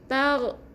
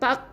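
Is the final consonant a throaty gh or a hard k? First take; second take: throaty gh; hard k. First: It ends with a throaty gh sound. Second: It ends with a hard k sound. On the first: The speaker calls it right. "huruf ghain" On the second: The speaker calls it wrong. "bukan tak, bukan huruf qaf ni"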